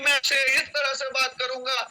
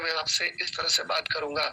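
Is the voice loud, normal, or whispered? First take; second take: loud; normal. First: It is said loudly, like a speech. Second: It is said at normal conversational volume.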